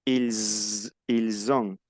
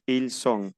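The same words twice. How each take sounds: First: "Ils" held into a long buzz, then il-zon; Z liaison. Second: "ils sont" with voiceless S, il-son; no buzz on the S of "sont"; S sound. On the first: Teacher shows what makes the difference, buzzing Z in "ils ont". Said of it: "hace la diferencia". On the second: Teacher gives the être form for contrast, "ils sont" with S. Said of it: "con etre decimos". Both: Shown as a demonstration.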